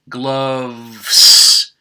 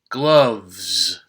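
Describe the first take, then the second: First: The word ends with a voiceless hissing S. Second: The word ends with a voiced buzzing Z. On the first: The speaker calls it wrong. "Instead of a voiceless s, that would be very difficult to say" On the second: The speaker calls it right. "the sound is more like a z, a voiced z"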